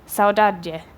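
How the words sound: It is said in a European Portuguese accent.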